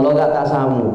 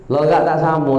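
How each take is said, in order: Both takes have the same delivery.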